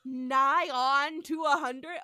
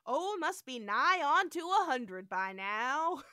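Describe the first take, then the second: First: Slow and louder, savoring the drawl; mock drawl. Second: Slow hammed drawl; drawled original. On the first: Podcaster repeating the drawl, slow and loud. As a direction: stretch it out like an old-timer. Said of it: "repeats the drawled line". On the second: First telling of the line, slow drawl. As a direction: drag the words out lazily. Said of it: "he says".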